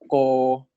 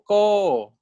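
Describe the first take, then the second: First: It is said with the plain, ordinary tone. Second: It is said with the second tone. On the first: "no tone marks, So it's just the 普通声" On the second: "第二标 gives you 第二声"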